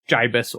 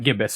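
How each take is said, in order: First: The first sound differs from that of 'ghastly'. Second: The first sound matches that of 'ghastly'. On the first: The speaker calls it right. "The internet claims that it's pronounced gibus" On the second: The speaker calls it wrong. "and not gibbous at all, as I thought"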